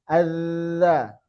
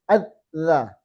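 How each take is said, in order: First: The dh sound flows on without stopping. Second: The dh sound is cut off abruptly. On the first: The speaker calls it right. "mengalir kan tidak putus" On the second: The speaker calls it wrong. "tidak seperti ini"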